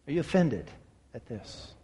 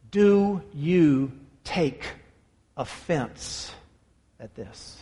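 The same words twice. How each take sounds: First: Much softer, ending in a whisper; whispered question. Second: Very slow, dropping softer on each word; slow, hushed emphasis. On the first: Preacher repeats Jesus' question to the congregation in a whisper. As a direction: breathe the question out, barely voiced. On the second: Preacher voices Jesus' question to his disciples, slow and hushed. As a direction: let each word sink in, fading to a hush. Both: Acted. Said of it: "The reason I emphasize that".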